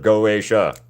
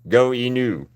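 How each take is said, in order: First: The name ends with a 'sha' sound. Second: The name ends with a 'new' sound. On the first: The speaker calls it right. "instead of Go A Sha" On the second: The speaker calls it wrong. "my pronunciation was stupid"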